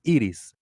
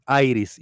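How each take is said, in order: First: "Iris" said EE-rees; Spanish "Iris" with a tapped r; Spanish pronunciation. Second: "Iris" said EYE-riss; English-style "Iris", long i first; English pronunciation. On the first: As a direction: open "Iris" with "ee", tap the r. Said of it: "the pronunciation is Iris". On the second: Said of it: "but in Spanish, the pronunciation is". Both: Shown as a demonstration.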